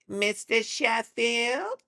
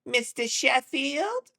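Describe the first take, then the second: First: High, loud, very drawn-out gravelly whine; Fran Drescher. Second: Very high, loud, drawn-out sitcom whine; Fran Drescher. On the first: Streamer refining a TV star's catchphrase, gravelly high impression. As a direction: stretch it even longer, with a little gravel. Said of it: "It's a little more gravelly". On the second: Streamer trying out a TV star's catchphrase, high drawn-out impression. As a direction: call it out high and slow as a question. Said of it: "It's like Fran Drescher". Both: Acted.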